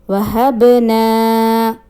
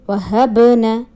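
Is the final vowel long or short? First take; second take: long; short. First: The final vowel is long. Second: The final vowel is short. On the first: The speaker calls it right. "Correct pronunciation is" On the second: The speaker calls it wrong. "No long sound will be there"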